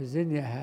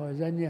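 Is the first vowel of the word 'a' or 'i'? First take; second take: i; a. First: The first vowel is i. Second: The first vowel is a. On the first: It names the manner of the act. "زنية هيئة" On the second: It names a single instance of the act. "وزنية فعلة مرة"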